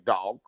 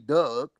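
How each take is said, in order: First: The vowel sounds like the standard 'dog' vowel. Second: The vowel sounds like the vowel in 'Doug'. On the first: The speaker calls it right. "I know it ain't right, so I say dog" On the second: The speaker calls it wrong. "a lot of people in Baltimore do say Doug"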